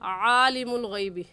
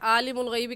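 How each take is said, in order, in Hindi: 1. पहली आवाज़ गले से दबाकर निकाली जाती है। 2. पहली आवाज़ एक सादा स्वर है, गले वाली नहीं। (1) "सही है" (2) "कहना गलत है"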